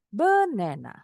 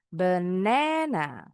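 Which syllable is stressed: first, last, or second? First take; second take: first; second. First: The stress is on the first syllable. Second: The stress is on the second syllable. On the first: The speaker calls it wrong. "taruh di awal" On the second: The speaker calls it right. "suku kata kedua kita bacanya lebih tinggi"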